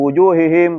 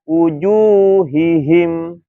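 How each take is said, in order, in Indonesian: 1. Kata itu diucapkan dengan cepat dan terburu-buru. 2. Kata itu diucapkan dengan pelan dan hati-hati. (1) "Kalau keburu-buru nggak jelas tuh" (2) "maka dia harus pelan-pelan, jangan terburu-buru"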